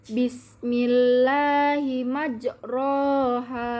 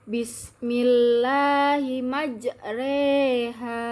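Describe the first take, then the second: First: The vowel after the r is a plain open a. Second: The vowel after the r leans toward e. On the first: "Sebelumnya bacaannya adalah" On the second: "Jika terkena imalah menjadi"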